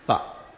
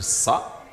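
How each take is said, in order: First: The syllable starts with a lisped th sound. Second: The syllable starts with a hissing s sound. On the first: "si on met la langue entre les dents essayant de dire ça" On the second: "on ne va pas dire ça"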